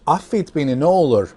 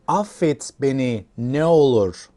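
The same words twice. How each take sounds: First: It is said at normal speed. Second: It is said slowly.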